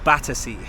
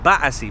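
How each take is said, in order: First: It is said in a non-British accent. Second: It is said in a British accent. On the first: "but we're going to Battersea" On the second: "if I was to say it in British, I would say Battersea"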